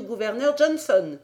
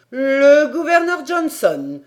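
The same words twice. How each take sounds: First: Said in the usual way. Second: Loud, high, drawn-out outcry; exclamation. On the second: A narrator's reading. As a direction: cry out the name in disbelief, stretching it. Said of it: "s'écria Paganel". (exclamation forte et incrédule)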